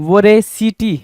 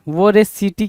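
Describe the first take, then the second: No difference in how they are said.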